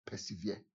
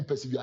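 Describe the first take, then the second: First: A soft muttered Persevere by the crowd. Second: Said in the usual way. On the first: Retold or imitated. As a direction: mutter "Persevere" low under the breath like the crowd. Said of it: "they whispered, every-, they muttered it". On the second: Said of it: "Repeat after me".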